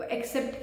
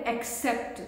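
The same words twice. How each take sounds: First: एक्सेप्ट with the k dropped, "a-SEPT"; mispronunciation. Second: एक्सेप्ट with a clear k before the s; correct pronunciation. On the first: Teacher copies students' mistake, mispronouncing एक्सेप्ट as "assept". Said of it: "की जगह word बोलते हैं". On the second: Teacher models the word for students, correctly pronouncing एक्सेप्ट as "ek-sept". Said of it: "pronunciation का मतलब हो गया, जैसे word है". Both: Shown as a demonstration.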